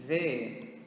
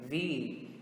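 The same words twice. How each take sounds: First: V said as "veh"; Portuguese letter V. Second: V said as "vee"; English letter V. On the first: Teacher naming the letter in Portuguese first, V as "veh". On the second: Teacher answering with the English letter, V as "vee". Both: Shown as a demonstration. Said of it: "in English is going to be".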